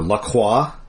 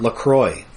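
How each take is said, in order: First: The name is pronounced the French way. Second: The name is pronounced the English way. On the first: "Lacroix Street" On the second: "everyone here pronounces it Lacroix"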